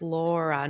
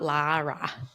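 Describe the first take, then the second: First: The name is said like Laura. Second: The name is said like Lara. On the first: The speaker calls it right. "it's Laura" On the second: The speaker calls it wrong. "not Lara"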